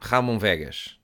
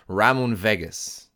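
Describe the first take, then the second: First: It is said with a Portuguese accent. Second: It is said with an English accent.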